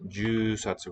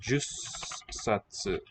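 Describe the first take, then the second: First: A long vowel is followed by a single s. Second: A short vowel is followed by a doubled s. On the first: "with a long vowel" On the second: "The number ten sometimes contracts like that"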